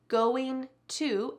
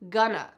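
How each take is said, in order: First: Both words are said fully and separately. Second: The words are squeezed into one short word. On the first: "Gonna is actually going to" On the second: "when we speak, we just say gonna"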